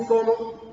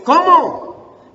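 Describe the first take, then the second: First: Said in the usual way. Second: "¿Cómo?" loud and high, stressed on the first O; accented exclamatory CÓMO. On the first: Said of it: "no le pone tilde". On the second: Shown as a demonstration. Preacher explains the written accent to the church, exclaimed "¿Cómo?". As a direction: punch the first syllable of "¿Cómo?" as an exclaimed question. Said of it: "aquí le pone tilde en la O".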